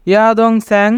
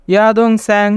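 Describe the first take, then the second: No difference in how they are said.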